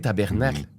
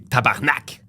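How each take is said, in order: First: It is said the English way, fully. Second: It is said the Quebec way, clipped. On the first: "But we don't say tabernacle" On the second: "We say tabarnak"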